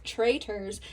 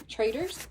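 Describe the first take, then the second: First: "Traitors." said firmly with a falling end, Southern accent; "Traitors." landed with a decided fall, Southern vowels; settling the word. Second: "Traitors?" tried out with a questioning rise; "Traitors?" asked with an upturn, a Southern lilt; checking the word. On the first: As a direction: confirm "Traitors." flatly, in a Southern drawl, dropping at the end. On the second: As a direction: test "Traitors?" aloud, rising at the end as if unsure. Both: Shown as a demonstration. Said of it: "You can really hear my southern accent in this".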